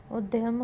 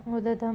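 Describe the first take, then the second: First: उद्यम said as ud-yam; correct pronunciation. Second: उद्यम said as ud-dam, no y; wrong pronunciation. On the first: Teacher giving the correction, उद्यम as ud-yam. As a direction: sound the y in उद्यम. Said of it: "होगा". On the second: Teacher showing a spelling error, उद्यम as ud-dam. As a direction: drop the y from उद्यम. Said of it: "नहीं होगा". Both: Shown as a demonstration.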